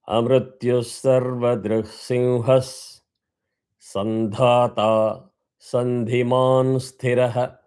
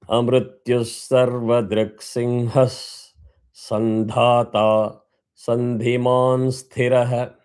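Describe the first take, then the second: No difference in how they are said.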